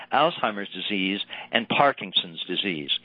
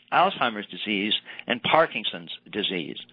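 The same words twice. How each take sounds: No difference in how they are said.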